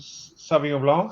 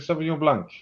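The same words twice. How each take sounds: First: It is pronounced the French way. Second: It is pronounced the English way. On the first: "as we say in or in France" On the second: "but you say Sauvignon Blanc"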